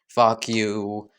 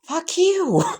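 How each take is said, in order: First: It is said at a lower volume. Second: It is said at a higher volume.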